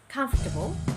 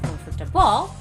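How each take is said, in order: First: The stress is on the first syllable. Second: The stress is on the fourth syllable. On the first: The speaker calls it right. "but rather you should say" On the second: The speaker calls it wrong. "not on the fourth"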